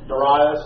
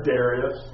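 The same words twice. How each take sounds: First: Darius said "duh-RYE-us"; alternate pronunciation. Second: Darius said "DARE-ee-us"; alternate pronunciation. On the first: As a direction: stress the middle of Darius, rhyming it with "eye". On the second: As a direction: stress the first syllable of Darius. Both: Shown as a demonstration. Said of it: "depending on whether you say tomato or tomato".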